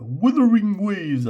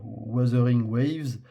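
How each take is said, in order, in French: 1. Il est prononcé avec un accent à l'anglaise. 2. Il est prononcé avec un accent français.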